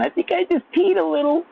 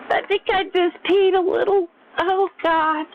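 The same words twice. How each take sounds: First: Put-on much higher girly voice, rising at the end; giggly girl quote. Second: Put-on much higher squealy girl voice; giggly girl quote. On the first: Mimicking girls to his chat, high squealy girl voice. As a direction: squeal it like a girl who laughed too hard. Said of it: "I think I'd be saying". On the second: Imitating girls for viewers, high squealy girl voice. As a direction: gush it like a girl laughing too hard. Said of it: "Girls love to say that".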